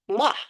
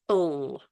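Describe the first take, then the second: First: The sound is followed by an extra ah vowel. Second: The sound stops short with no extra vowel. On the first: The speaker calls it wrong. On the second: The speaker calls it right. "it's L"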